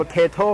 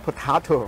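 First: "potato" said po-TAY-to, with an ay sound; "potato" as po-TAY-to, the northern American accent. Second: "potato" said po-TAH-to, with an open ah; "potato" as po-TAH-to, a southern US accent; southern Texan potato. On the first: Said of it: "สำเนียงเหนือกับสำเนียงใต้ก็จะเรียกมันฝรั่งอีกแบบหนึ่ง". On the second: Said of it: "อย่างเท็กซัสเนี่ย น่าจะเรียกว่า". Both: Shown as a demonstration.

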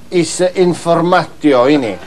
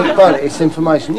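First: Informatio said slowly with the final n dropped; imitating Bernie's mistake. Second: Said in the usual way. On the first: Mocking Uncle Bernie's sign, informatio said without its final n. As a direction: mimic the uncle saying informatio, no n at the end. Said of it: "But he don't talk like that normally". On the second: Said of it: "I say, "No".

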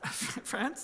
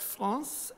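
First: France with a flat English "a" as in "can"; English pronunciation. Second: France with a nasal French "ahn" vowel; French pronunciation. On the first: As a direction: quietly correct France to the English vowel. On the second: Slips into French saying the country. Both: Real, not acted.

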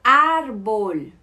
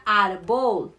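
First: Árbol with a loud, long first á; ÁR-bol, as a clear model word; stress on first syllable. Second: Árbol mis-stressed on the last syllable, ar-BOL; wrongly placed stress. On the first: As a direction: punch the Á of árbol, let the second syllable fall. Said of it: "o A tem a tilde". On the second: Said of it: "Não seria árbol". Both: Shown as a demonstration.

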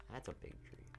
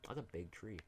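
First: Whispered, breathy repeat of the line. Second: Said in the usual way. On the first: Shown as a demonstration. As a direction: drop to a whisper on "That's a big tree".

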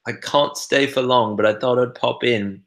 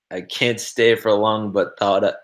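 First: Higher-pitched British accent, imitating a chat friend; imitated British accent. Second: Said in the usual way. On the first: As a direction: read it out in a put-on British accent. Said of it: "say it sort of in your voice". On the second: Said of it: "reading everything you write in an American accent".

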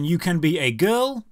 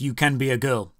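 First: Said in the usual way. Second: Put-on "can" pressed lower and flat, full stop after "girl"; deadpan stress on can. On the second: Shown as a demonstration. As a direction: drop it flat, hitting "can" as final. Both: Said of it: "That's the end of the sentence".

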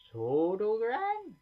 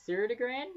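First: "Sodogran" tried slowly, rising like a question, higher and louder; first stab at "Sodogran", drawn out and questioning; unsure name guess. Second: "Serdegran" tried again, high and rising like a question; second name guess. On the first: Gamer stumbling over a prospect's name, slow rising guess. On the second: Gamer retries the hard name, high questioning guess. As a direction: another stab, "Serdegran", pitched up and unsure. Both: Real, not acted. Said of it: "Yeah, I can't pronounce his name".

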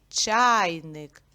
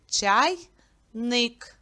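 First: ЧАЙник with a long, loud first syllable; stress on first syllable. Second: Чай-ник, broken by a clear pause; split into syllables. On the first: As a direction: hit and stretch ЧАЙ in чайник. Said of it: "Наголос падає на перший звук". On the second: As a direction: say чайник as two separate syllables. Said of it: "ділиться це слово на два склади". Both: Shown as a demonstration.

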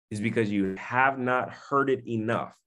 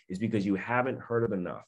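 First: "have not" said in full, each word separate; firm restatement stressing "have not". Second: Said in the usual way. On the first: Real, not acted. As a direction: drive home "have not heard it enough". Repeats line with contraction spelt out.

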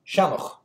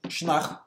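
First: "shanach" in its modern Irish form, two syllables; modern Irish pronunciation. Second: Munster "shnach", first vowel swallowed, stress on the ending; stress on second syllable. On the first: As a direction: say "shanach" with a full first vowel, the modern Irish way. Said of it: "in modern Irish". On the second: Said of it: "with the stress on the second syllable". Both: Shown as a demonstration.

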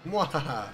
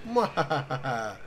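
First: Quick villain mwahaha; Mandark laugh. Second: Slow drawn-out villain mwahaha; Mandark laugh. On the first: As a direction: snap out a short evil laugh. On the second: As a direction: stretch the evil laugh out slowly. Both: Retold or imitated. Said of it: "Checking it from Mandark".

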